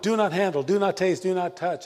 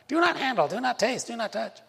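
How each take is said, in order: First: It is read in a normal, plain voice. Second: It is said in a mocking, scolding legalist voice.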